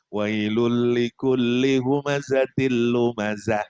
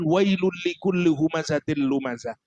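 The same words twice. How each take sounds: First: It is said calmly, in a casual tone. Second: It is said forcefully, like a challenge. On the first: It is read as an ordinary recitation. "Kita bacanya sekarang nyantai" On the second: It is a direct challenge to those being rebuked. "Ngajak perang nih, bahaya ngomong nih waktu zaman itu"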